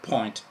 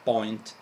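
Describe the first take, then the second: First: It is said with an English accent. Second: It is said with an Italian accent. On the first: The speaker calls it right. "instead of" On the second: The speaker calls it wrong. "Italians tend to pronounce"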